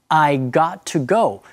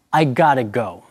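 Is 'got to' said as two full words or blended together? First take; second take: full; blended. First: Got and to are said as separate full words. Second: Got and to are blended into one reduced word.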